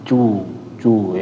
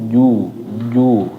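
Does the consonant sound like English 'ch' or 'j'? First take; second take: ch; j. First: The consonant is a voiceless ch-like sound. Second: The consonant is a voiced j sound. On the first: The speaker calls it wrong. "Jangan jangan cu cu ya" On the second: The speaker calls it right. "Wujuh wujuh ju ju ya"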